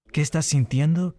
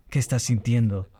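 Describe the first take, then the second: First: ¿Qué estás sintiendo? pitched higher, rising on sintiendo; higher, rising plea on sintiendo; pleading question. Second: Said in the usual way. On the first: Shown as a demonstration. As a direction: lift it into a longing question. Repeating the song's plea, now asking.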